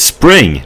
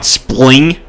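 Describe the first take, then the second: First: The word begins with a clear spr sound. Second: The word begins with an spl sound instead. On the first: The speaker calls it right. "It's spring" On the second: The speaker calls it wrong. "not spling"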